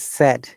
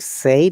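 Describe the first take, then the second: First: The vowel is a short e sound. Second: The vowel is not a short e sound. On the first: The speaker calls it right. "it is said... sound like said, S E D" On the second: The speaker calls it wrong. "it is not said"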